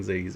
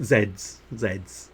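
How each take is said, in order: First: "Z's" said the American way, as "zees"; American pronunciation. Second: "Z's" said the British way, as "zeds"; British pronunciation. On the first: Slipping into American while chatting to viewers, "Z's" as "zees". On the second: Correcting an American slip for viewers, "Z's" as "zeds". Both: Real, not acted. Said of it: "I don't know why I went American for a moment there".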